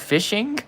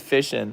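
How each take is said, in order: First: The ending is fully pronounced, with the final g. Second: The ending is clipped, without the final g. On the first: This sounds odd to the locals. "I enunciate it" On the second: This is how locals say it. "Everybody around here says hunting and fishing"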